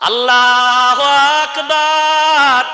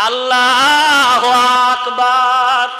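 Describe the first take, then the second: Both takes have the same delivery.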